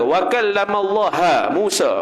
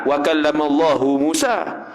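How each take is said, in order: First: The word Allah ends with an a vowel. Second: The word Allah ends with a u vowel. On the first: Moses spoke to God. The speaker calls it wrong. "Kalau kita ubah ya" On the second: God spoke to Moses. The speaker calls it right. "Kalau Quran"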